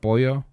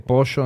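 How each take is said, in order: First: The double L sounds like 'y'. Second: The double L sounds like 'sh'. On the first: This is how other Spanish speakers say it. "instead of pollo" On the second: This is how Argentines say it. "double L's instead of you, we say sh. So we say pollo"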